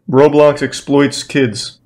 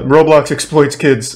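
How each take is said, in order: First: It is said tentatively, with a hedge. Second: It is said boldly and confidently.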